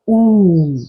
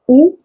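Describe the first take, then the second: First: The vowel is held longer. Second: The vowel is short. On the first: "mais plus prolongé" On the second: "Le U est prononcé ou"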